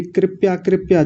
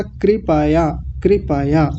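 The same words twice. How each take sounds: First: कृपया run together as KRIP-ya; wrong KRIP-YA. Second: कृपया as KRI-PA-YA, each syllable full; correct kri-pa-ya. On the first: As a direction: drop the vowel after P in कृपया. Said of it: "कृपया नहीं होता". (कृपया को 'कृप्या' जैसा) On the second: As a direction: open up the PA in कृपया before YA. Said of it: "ऐसा बोलेंगे". (कृपया तीन पूरे अक्षरों में, कृ-प-या) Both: Shown as a demonstration.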